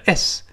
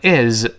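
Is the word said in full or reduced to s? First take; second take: reduced; full. First: It is said fast, reduced to a bare s. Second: It is said slowly with its full vowel. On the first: "读快了读成s" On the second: "读慢了读成is"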